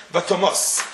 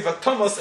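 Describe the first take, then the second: First: "Vatomos" stressed on the first syllable; wrong stress. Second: "Vatomos" stressed on the final syllable; correct stress. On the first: Teacher showing the wrong pronunciation of "Vatomos", stressed first syllable. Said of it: "and not". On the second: Teacher giving the right pronunciation of "Vatomos", stressed last syllable. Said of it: "we know we say". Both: Shown as a demonstration.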